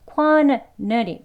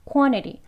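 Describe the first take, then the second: First: It is said slowly with a clear T. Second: It is said fast, the T merging into N.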